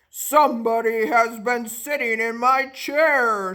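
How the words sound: It is said in a deep, gruff voice.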